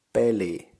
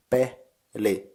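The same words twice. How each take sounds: First: Said in the usual way. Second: "peli" broken into pe, then li, with a gap; syllable by syllable. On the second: Shown as a demonstration. Teacher splitting the Finnish word for game, "peli" in separated syllables. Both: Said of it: "In syllables it's".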